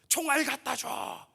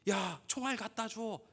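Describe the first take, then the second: First: It is shouted loudly. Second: It is said calmly at normal volume.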